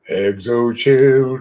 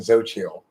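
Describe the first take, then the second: First: The name is said the way it is spelled. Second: The name is said the usual, intended way. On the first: The speaker calls it right. "looks like it should be pronounced exochilt" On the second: The speaker calls it wrong. "that lame pronunciation"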